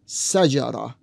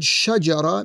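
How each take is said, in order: First: The word begins with an S sound. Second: The word begins with an SH sound. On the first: "Instead of the SH sound, it is an S sound" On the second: "the word shajara means tree"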